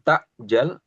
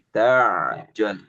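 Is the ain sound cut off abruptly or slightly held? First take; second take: abrupt; held. First: The ain sound stops abruptly like a glottal stop. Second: The ain sound is held slightly before continuing. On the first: The speaker calls it wrong. "dia nggak dimatikan seperti hamzah, bukan" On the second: The speaker calls it right. "tapi ... Namanya sifat bainiyah"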